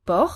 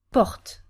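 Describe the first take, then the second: First: "Por" with a gentle R, like a purr, at the end; gentle final French R. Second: "porte" with a stronger R before the T; stronger French R. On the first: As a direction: say "Por" with a light French R left open. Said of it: "try to feel the different intensity". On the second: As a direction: say "porte", tongue further back on the R. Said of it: "here is a bit stronger". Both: Shown as a demonstration.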